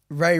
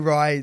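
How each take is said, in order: First: The vowel sounds like the one in 'day'. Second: The vowel sounds like the one in 'eye'. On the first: This is how people outside the family say it. "people who aren't related to me say Ray" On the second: This is how the family says it. "the family say Rye"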